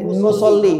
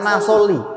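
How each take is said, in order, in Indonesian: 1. Suku kata pertama memiliki vokal u. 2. Suku kata pertama memiliki vokal a. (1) "Jadi nusolli" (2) "bukan nasolli"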